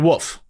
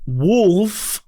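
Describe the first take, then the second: First: The word is said without an L sound. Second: The word is said with an L sound. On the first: "I say woof" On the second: "when I say uh wolf"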